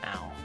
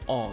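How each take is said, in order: First: The vowel is like the one in 'howl'. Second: The vowel is like the one in 'ball'. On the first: The speaker calls it wrong. "not an owl" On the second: The speaker calls it right. "Exactly like the common word all"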